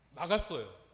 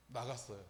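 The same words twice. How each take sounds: First: Louder, proud 나갔어요 with a firm fall; triumphant declare. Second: Low, soft 나갔어요 almost under breath; quiet reveal. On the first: Preacher proclaiming the exorcism worked, triumphant declaration. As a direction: proclaim the victory. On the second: Preacher answering his own question to the congregation, quiet reveal. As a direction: let it land softly. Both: Real, not acted.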